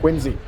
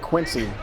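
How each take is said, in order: First: The middle consonant is a buzzing z sound. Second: The middle consonant is a hissing s sound. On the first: The speaker calls it right. "like it's a Z" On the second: The speaker calls it wrong. "If you say Quincy around someone from that area, they will correct you quickly"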